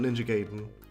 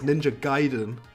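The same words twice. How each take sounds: First: Gaiden is said with the rejected pronunciation. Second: Gaiden is said with the speaker's preferred pronunciation. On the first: The speaker calls it wrong. "not Ninja Gaiden" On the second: The speaker calls it right. "I'm saying it right, it's Ninja Gaiden"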